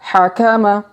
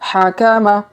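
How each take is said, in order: Both takes have the same delivery.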